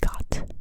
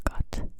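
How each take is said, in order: The two takes are said the same way.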